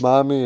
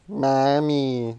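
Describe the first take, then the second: First: It is said as a sincere call from Ava. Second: It is said as a mocking imitation.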